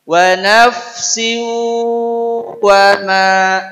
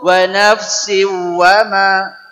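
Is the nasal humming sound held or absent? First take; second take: held; absent. First: It is said with a held nasal hum. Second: It is said without a held nasal hum. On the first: The speaker calls it right. "Jadi di sini mesti ada dengung" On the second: The speaker calls it wrong. "Tidak cukup"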